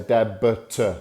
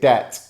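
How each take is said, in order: First: A B sound is pronounced before the T. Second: No B sound is pronounced before the T. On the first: The speaker calls it wrong. "We don't say debit" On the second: The speaker calls it right. "We say debt"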